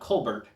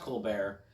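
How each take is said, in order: First: The name is said with an English pronunciation. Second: The name is said with a French pronunciation. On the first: The speaker calls it wrong. "and not Colbert" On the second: The speaker calls it right. "in the appropriate French pronunciation"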